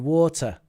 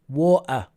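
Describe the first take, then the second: First: The middle t is a clear t. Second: The middle t is a glottal stop. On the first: It suits a formal context. The speaker calls it right. "You say water in formal context" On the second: It sounds very colloquial. The speaker calls it wrong. "we avoid the glottal stop in the middle of words"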